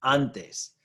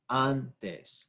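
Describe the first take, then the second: First: Said in the usual way. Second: "antes" slowly split, "an" stressed, then "tes"; stress on first syllable. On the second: Shown as a demonstration. Teacher showing stress is on the first syllable, slow split "antes". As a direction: break "antes" in two, leaning on "an". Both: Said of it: "Stress is on that first syllable".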